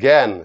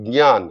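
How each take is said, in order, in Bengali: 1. শব্দটি g ধ্বনি দিয়ে শুরু হয়। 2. শব্দটি j ধ্বনি দিয়ে শুরু হয়। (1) "শুনতে কিরকম লাগে, গয়ে জফলা" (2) "কিন্তু এটা উচ্চারণ হবে"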